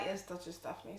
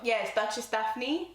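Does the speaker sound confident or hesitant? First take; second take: hesitant; confident. First: It is said hesitantly and without assurance. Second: It is said confidently and assertively.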